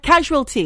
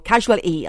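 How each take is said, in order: First: The word is said with its final t sound. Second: The word is said without its final t sound.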